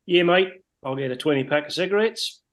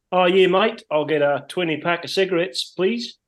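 First: Put-on light New Zealand accent, higher pitch; a touch of a Kiwi bloke ordering; broad kiwi accent. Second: Lightly imitated New Zealand accent, raised pitch; a hint of a laid-back Kiwi bloke; broad kiwi accent. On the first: Retold Kiwi coworker repeats order. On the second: Retold Kiwi coworker in shop.

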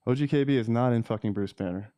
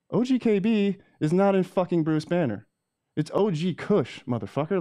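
First: Said in the usual way. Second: High, heated repeat; the same line again, now higher and heated; outraged correction. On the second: Real, not acted. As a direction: hammer the correction home in disbelief.

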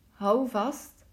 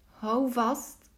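Both takes have the same delivery.

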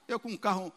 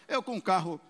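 Both takes have the same delivery.

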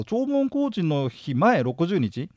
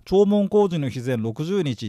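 First: 弔問工事の日前六十日 read out slowly, word by word; slow, deliberate. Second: 弔問工事の日前六十日 read out slowly, stressing 工; slow, deliberate. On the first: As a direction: spell out each word slowly. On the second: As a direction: read the term slowly, word by word. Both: Shown as a demonstration. (ゆっくり区切って読み上げる)

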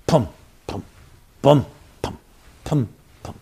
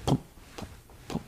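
First: Soft rhythmic pum pum heartbeat thumps; imitated heartbeat. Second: Breathy voiceless pum pum pum heartbeat; whispered heartbeat. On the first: Rabbi imitating the heartbeat tape for listeners, soft thumps. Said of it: "A heartbeat is playing in the background". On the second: Retold or imitated. Rabbi recreating the womb heartbeat for listeners, whispered. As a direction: whisper the heartbeat very softly, like it's far inside. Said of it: "and you hear it".

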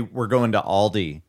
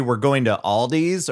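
First: "Aldi" said with no final s, ahl-dee; Aldi without s. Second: "Aldi's" said with a final s, ahl-deez. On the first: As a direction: say "Aldi" ending on the ee sound. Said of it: "or do you say". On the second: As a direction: say "Aldi's" ending on a clear z sound. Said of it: "do you say". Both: Shown as a demonstration.

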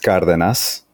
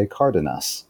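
First: Cardenas said the Spanish way; Spanish-accented Cardenas, stressed on the first A; Spanish pronunciation. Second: Cardenas said the American English way; gringo-style Cardenas, as for American friends; gringo pronunciation. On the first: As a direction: give Cardenas its native Spanish sounds. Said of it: "like, the Spanish pronunciation". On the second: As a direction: anglicize Cardenas with plain English sounds. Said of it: "gringo pronunciation that, that I share". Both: Shown as a demonstration.

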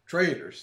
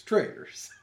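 First: Said in the usual way. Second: Whispered trailers; a mock whispered trailers. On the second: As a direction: breathe the word trailers with no voice. Repeating the word trailers.

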